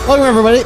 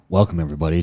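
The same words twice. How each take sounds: First: It is said fast. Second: It is said slowly.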